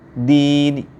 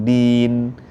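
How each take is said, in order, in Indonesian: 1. Ada vokal pendek yang sangat samar setelah n di akhir. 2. n di akhir berakhir bersih, tanpa vokal. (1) "samar sekali suaranya" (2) "harus sukun din"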